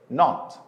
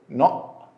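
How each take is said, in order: First: The word ends with a clear t sound. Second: The word ends with a glottal stop.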